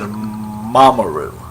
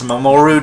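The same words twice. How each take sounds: First: The stress is on the first syllable. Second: The stress is not on the first syllable.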